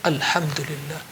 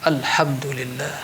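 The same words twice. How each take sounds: No difference in how they are said.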